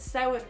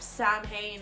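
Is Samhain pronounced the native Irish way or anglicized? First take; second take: Irish; anglicized. First: It is pronounced with the native Irish sounds. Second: It is pronounced with anglicized, letter-by-letter sounds. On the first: This is how the name is really said. The speaker calls it right. "pronounce Samhain properly" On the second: This is how films mangle the name. The speaker calls it wrong. "like they say in Halloween"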